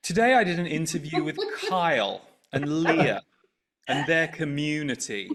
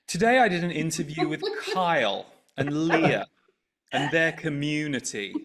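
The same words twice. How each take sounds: First: The tone is loaded and disapproving. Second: The same.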